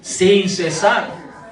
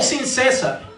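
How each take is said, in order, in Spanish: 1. El acento está en la última sílaba de cesar. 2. El acento está en la primera sílaba de cesar.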